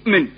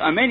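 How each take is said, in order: First: The first vowel is nearly dropped. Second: The first vowel is said fully. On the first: The speaker calls it wrong. "avec la voyelle chataf, c'est-à-dire avec un sheva" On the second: The speaker calls it right. "au lieu de dire amen"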